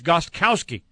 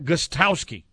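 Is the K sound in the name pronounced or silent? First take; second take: pronounced; silent. First: The K sound in the middle is pronounced. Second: The K sound in the middle is left silent. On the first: The speaker calls it right. "You're supposed to pronounce everything" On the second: The speaker calls it wrong. "It's not Gostkowski"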